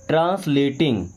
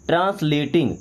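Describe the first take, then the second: Both takes have the same delivery.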